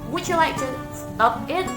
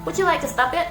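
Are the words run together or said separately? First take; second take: Separately; Run together. First: The words are said slowly and kept separate. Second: The words are said fast and run together. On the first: "padahal bukan" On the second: "kalau native speaker sudah ngomong cepat"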